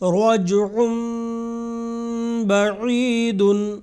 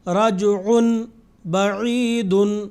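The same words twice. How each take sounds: First: A nasal m sound comes before the b. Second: A plain n sound comes before the b. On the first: The speaker calls it right. "बल्कि" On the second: The speaker calls it wrong. "इस तरीके से नहीं पढ़ा"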